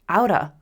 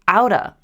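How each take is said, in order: First: The words blend into one reduced word. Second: The same.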